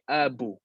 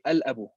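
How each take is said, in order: First: The L sound of the article is dropped. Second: The L sound of the article is pronounced. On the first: The speaker calls it wrong. "Can't say" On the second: The speaker calls it right. "we mention the lam in al"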